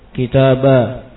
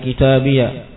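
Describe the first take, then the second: First: The word ends in a long a sound. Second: The word ends in an added ya syllable. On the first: "Yang ketiga diganti ya-nya menjadi alif" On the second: "Yang kedua dia di fathah ya-nya"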